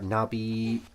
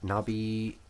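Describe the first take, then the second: Both takes have the same delivery.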